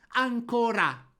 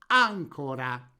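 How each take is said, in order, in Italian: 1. L'accento cade sull'ultima sillaba. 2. L'accento cade sulla prima sillaba. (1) "scriviamo la parola tronca ancora" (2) "poniamo l'accento tonico sulla terzultima vocale, costruendo la parola sdrucciola"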